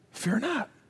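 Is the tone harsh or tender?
tender. It is said in a warm, tender tone. The command comes from a loving father offering comfort. The speaker calls it right. "he's saying it like this. Look me in the eye"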